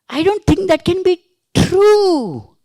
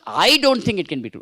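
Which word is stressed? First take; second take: true; I. First: The stress falls on the word true. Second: The stress falls on the word I. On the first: The statement may be false. "It may be false" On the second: Others may think so, but not the speaker. "That means you may think, but I don't think"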